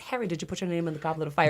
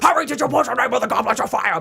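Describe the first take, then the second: First: It is said in a calm, quiet way. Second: It is said in an agitated, forceful way.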